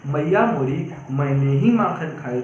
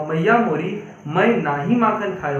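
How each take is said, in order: First: Lower, मैंने ही joined as one unit; confession phrasing. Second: ना ही kept as two words, denying; denial phrasing. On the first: Teacher quoting Krishna to his mother, confession phrasing. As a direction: run मैंने ही together, owning up. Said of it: "sentence भी थोड़ा change था". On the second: Teacher quoting Krishna to his mother, denial phrasing. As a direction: separate ना from मैं in a denial. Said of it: "एक comma का प्रयोग". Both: Shown as a demonstration.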